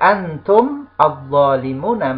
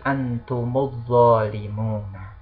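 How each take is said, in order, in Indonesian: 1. Antum dan kata berikutnya diucapkan terpisah. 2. Antum menyambung ke kata berikutnya dengan tambahan vokal u.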